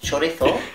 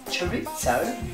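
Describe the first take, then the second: First: It is said with a Spanish accent. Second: It is said with a British accent.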